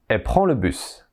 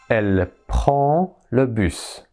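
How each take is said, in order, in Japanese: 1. 代名詞のelleは省略され、lの音が落ちます。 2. 代名詞のelleは完全に発音されます。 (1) "もう一度省略した形を言います" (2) "それがelle prend le bus になります"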